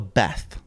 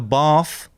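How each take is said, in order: First: The word is said in a plain accent. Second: The word is said in a posh accent. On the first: The speaker calls it wrong. "not a bath" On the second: The speaker calls it right. "You have a bath"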